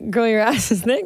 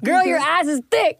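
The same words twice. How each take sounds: First: It is said flatly, without much energy. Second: It is said with lots of energy and oomph.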